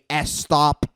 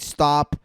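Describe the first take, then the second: First: An extra vowel is added before the s sound. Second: The word begins directly with the s sound. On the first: The speaker calls it wrong. "you guys say S stop" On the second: The speaker calls it right. "Instead of saying stop"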